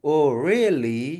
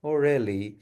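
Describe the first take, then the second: First: "really" slides up slowly, curious; drawn out and asking, with "really" climbing; rising tune. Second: "Oh really" drops at the end, uninterested; falling tune. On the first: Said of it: "with a rising voice". ("really" पर आवाज़ धीरे-धीरे ऊपर, जिज्ञासा से) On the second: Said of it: "with a falling voice". ("really" पर आवाज़ नीचे गिरती है, तंज़ से) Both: Shown as a demonstration.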